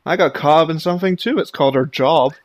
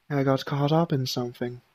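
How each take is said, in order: First: Loud, fast sarcastic comeback; snappy retort. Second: Quiet excuse. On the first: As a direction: snap back with sarcasm. Voiced game dialogue, sharp comeback. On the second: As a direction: play it down softly. Voiced game dialogue, character excuse. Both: Acted.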